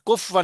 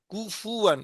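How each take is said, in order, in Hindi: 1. f सीधे w में जा मिलता है। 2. f और w के बीच एक छोटा उ स्वर आता है। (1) "कुफवन नहीं है" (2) "कुफुवन अहद, याद रखो"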